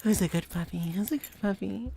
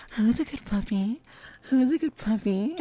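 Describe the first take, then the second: First: Gentler doting pet voice; Lilac impression. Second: High, loud doting puppy talk; Lilac impression. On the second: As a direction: coo at a good puppy. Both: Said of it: "That was my lilac impression".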